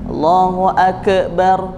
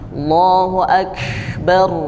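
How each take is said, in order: First: The k is released with a bouncing echo. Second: The k is released with a breathy puff. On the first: The speaker calls it wrong. "itu berarti qalqalah, bukan berhembus" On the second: The speaker calls it right. "Harusnya bunyinya akbar"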